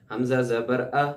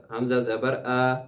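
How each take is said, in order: First: ا released freely, not pulled back; slow, let the ا go naturally; correct hamza. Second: آ stretched long, like aa; wrong lengthened a. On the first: Teacher models the right ا for students to repeat. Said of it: "اس لہجے میں آپ میرے ساتھ دہرائیے". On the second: Teacher showing students the lengthening mistake. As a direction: drag out آ as the error. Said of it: "وہ اس کو لمبا کرنے والی ہوتی ہے". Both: Shown as a demonstration.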